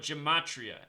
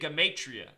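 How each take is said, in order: First: The word begins with a stressed j sound. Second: The word does not begin with a j sound. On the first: The speaker calls it wrong. "I call it gematria. ... So I'm emphasizing the j" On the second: The speaker calls it right. "The word is truly gematria"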